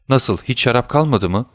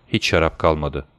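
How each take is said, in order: First: Higher, disbelieving rise on "kalmadı mı"; shocked question. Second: Said in the usual way. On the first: A narrator's reading. Son to father about the empty cupboards, shocked question. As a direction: ask in mild alarm, lifting "kalmadı".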